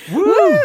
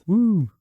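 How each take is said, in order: First: It is said with more enthusiasm. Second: It is said flatly, without enthusiasm.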